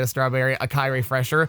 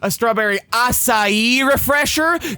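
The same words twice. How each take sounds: First: It is asked in a plain, neutral tone. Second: It is repeated in a condescending, patronizing tone.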